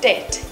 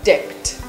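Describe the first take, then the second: First: The word is said with no 'b' sound. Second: The word is said with a 'b' sound. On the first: The speaker calls it right. "So we just ignore it and say debt" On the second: The speaker calls it wrong. "instead of debt"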